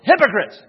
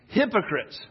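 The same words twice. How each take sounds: First: The word is exclaimed loudly and forcefully. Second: The word is said calmly, without force.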